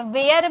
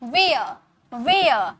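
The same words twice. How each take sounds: First: Where said with a hard r at the end; wrong way. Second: Where said as वेअ, with no r sound; correct way. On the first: Teacher demonstrating the wrong way to say where. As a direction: sound the r in where firmly. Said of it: "आर को ऐसे where मत बोलिएगा". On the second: Teacher modelling the right way to say where. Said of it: "आप सीधे बोलिए where". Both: Shown as a demonstration.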